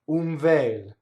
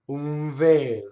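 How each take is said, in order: The two takes are said the same way.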